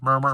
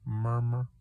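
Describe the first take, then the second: First: The beat sound is repeated quickly and urgently. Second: The beat sound is repeated slowly and calmly. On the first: The heart is working hard after exertion. "I get up and I just go for a run" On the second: The heart is at rest. "I'm calm and I'm having a good day and I'm at rest"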